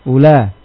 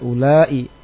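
First: The ending is short with no glottal stop. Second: The ending is long with a glottal stop. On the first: "dengan qasr tanpa hamzah pada bahasanya orang-orang tamim" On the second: "Pada bahasanya orang Hijaz dengan hamzah"

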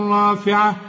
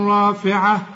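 No difference in how they are said.

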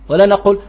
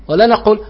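Both takes have the same delivery.

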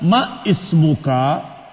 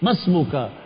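First: A glottal stop separates ma from ismuka. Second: Ma runs straight into the s sound. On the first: The speaker calls it wrong. "jangan mengatakan ma ismuka, itu kelihatan sekali bahwa dia belum belajar baik" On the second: The speaker calls it right. "Ma langsung ke sin"

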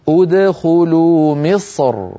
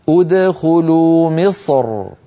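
The two takes are said the same way.

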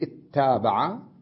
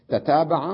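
First: One doubled t follows an initial i vowel. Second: Two separate t sounds begin the word.

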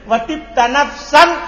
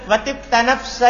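First: The last word ends with an 'n' sound. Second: The last word ends on a vowel. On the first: The poem's meter is broken. The speaker calls it wrong. "Berarti watibta nafsan. Putus kan?" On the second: The poem's meter flows on. The speaker calls it right. "Tanpa tanwin"

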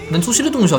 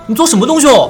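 First: It is said in the Nanchang dialect. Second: It is Mandarin said with pursed, dialect-flavored lips. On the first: "嘴巴是撅着" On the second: "然后配上去"

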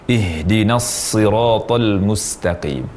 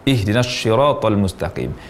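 First: The s in siratal is a heavy emphatic s. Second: The s in siratal sounds like sh. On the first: The speaker calls it right. "Yang benar" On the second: The speaker calls it wrong. "tidak seharusnya mengucapkan"

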